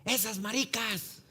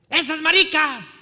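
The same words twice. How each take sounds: First: High, drawn-out taunt at moderate volume; restrained, high-pitched heckle; imitated jeering call. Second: High, very loud, drawn-out heckle; full-volume mocking yell; imitated jeering shout. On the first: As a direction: call it out slowly as if from across the street. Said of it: "de repente escuchamos". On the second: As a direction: bellow the taunt slowly. The jeer repeated, now shouted.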